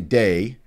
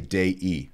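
First: The word is said as one syllable. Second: The word is said as two syllables. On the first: The speaker calls it wrong. "you don't say Dei" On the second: The speaker calls it right. "There are two syllables there"

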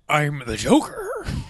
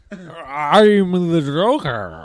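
First: The Joker voice sounds less drunk. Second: The Joker voice sounds more drunk.

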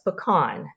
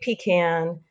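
First: It is said the Atlanta way. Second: It is said the South Georgia way.

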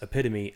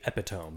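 First: The word is pronounced in the standard way. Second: The word is pronounced the way it is spelled. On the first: The speaker calls it right. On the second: The speaker calls it wrong.

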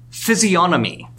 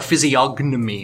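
First: The G in the word is silent. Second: The G in the word is pronounced.

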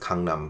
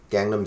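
First: It is said with a Korean-style pronunciation. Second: It is said with an English-style pronunciation. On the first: The speaker calls it right. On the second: The speaker calls it wrong.

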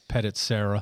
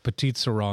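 First: It is pronounced in a plain English way. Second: It is pronounced in a French-sounding way. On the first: "and then we've heard" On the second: "because everything gets so fancy in French in the restaurants, so we want to say it like"

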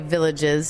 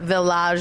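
First: The word is said with English sounds. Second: The word is said with French sounds. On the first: "just like we would say villages in America" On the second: "village is our French pronunciation"

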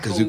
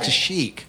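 First: The name is said as Kazook. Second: The name is said as Kashyyyk. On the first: The speaker calls it wrong. "it's not Kazook" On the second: The speaker calls it right. "it's Kashyyyk"

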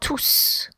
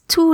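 First: The final S is pronounced. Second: The final S is silent. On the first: The word is a pronoun. "if you pronounce the S, tous is a pronoun" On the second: The word is an adjective. "the final S is not pronounced"

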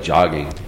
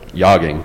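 First: The word begins with a hard J sound. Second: The word begins with a soft J sound.

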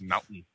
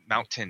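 First: The middle T is dropped. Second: The middle T is clearly pronounced. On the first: "we don't say our T's" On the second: "It's not mountain"

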